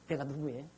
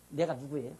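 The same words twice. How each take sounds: The two takes are said the same way.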